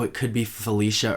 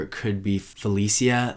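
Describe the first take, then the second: First: "Felicia" with a SH sound; Felicia as fuh-LEE-shuh. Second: "Felicia" with an S sound, no SH; Felicia as fuh-LEE-see-uh. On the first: Guessing a coworker's name on first read, "Felicia" said fuh-LEE-shuh. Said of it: "the first time I read her name". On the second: Guessing a coworker's name on first read, "Felicia" said fuh-LEE-see-uh. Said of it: "there's no S H in Felicia". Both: Shown as a demonstration.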